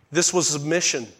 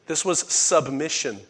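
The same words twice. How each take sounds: The two takes are said the same way.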